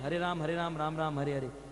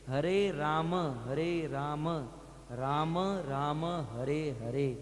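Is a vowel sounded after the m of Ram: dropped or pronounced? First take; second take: dropped; pronounced. First: Ram ends on the m with no vowel. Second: Ram ends with a full vowel after the m. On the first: The speaker calls it wrong. "हम लोग क्या बोलते हैं... ये बिल्कुल गलत है" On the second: The speaker calls it right. "ये पूर्ण प्रोनाउंसिएशन"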